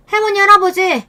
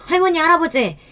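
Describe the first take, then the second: First: High, loud desperate call; shouting daughter. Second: Put-on higher, upset girl addressing grandparents; a teenage daughter confronting her grandparents; angry daughter calling out. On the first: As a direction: cry out to the grandparents. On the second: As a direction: daughter protesting to her grandparents, voice raised high. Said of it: "큰애가 나서서 시부모님께 소리를 지르더라고요". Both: A narrator's reading.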